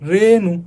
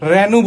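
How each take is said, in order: First: The first vowel is a closed 'e' sound. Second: The first vowel is an open 'ae' sound. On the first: The speaker calls it right. "আমরা কি বলছি" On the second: The speaker calls it wrong. "আমরা কিন্তু রেনু বলি না"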